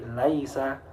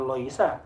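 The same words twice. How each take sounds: First: LAISA slowly, opening with a light 'lai'; thin lam. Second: LOISA starting with 'loi', not 'lai'; wrong thick lam. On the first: Teacher gives corrected reading, slow thin lam. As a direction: open 'a' after the L of LAISA, drawn out. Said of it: "tapi laisa". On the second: Teacher corrects pupils, showing the thick mistake. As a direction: round the vowel after L in LOISA. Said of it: "bukan, bukan loisa". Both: Shown as a demonstration.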